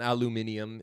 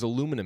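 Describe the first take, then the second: First: The word is said the British way. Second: The word is said the usual American way.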